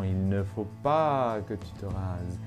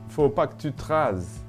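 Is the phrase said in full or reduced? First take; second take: full; reduced. First: Every word is pronounced, including il and ne. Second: Il and ne are dropped entirely.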